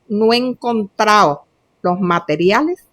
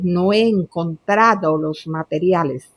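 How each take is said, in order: First: The d in encontrado is dropped. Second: The d in encontrado is clearly pronounced. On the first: The speaker calls it wrong. "Cuando dices" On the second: The speaker calls it right.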